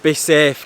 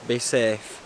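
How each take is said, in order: First: "be safe" said louder, falling firmly; stressed warning. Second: Said in the usual way. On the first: Shown as a demonstration. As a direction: hit "be safe" with a firm fall. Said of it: "if you're gonna do it". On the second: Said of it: "be safe, kids".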